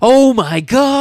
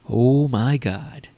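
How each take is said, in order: First: It imitates the over-the-top Troll 2 delivery. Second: It is said in a plain, ordinary voice.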